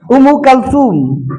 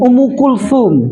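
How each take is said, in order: First: The second word starts with a 'ka' sound. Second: The second word starts with a 'ku' sound. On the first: The speaker calls it wrong. "bukan Kalsum" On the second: The speaker calls it right.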